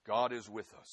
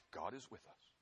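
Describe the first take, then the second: First: Said in the usual way. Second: Soft hushed affirmation with a rise on is. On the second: Shown as a demonstration. Preacher to congregation, soft hushed affirmation. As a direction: lean in and murmur it.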